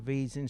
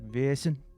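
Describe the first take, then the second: First: The name is said with a plain Midwestern sound. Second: The name is said with a pinched Scandinavian sound. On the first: "pardon my Midwestern tongue" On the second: "the proper way to say it is that Scandinavian way where you sort of like pinch the word back"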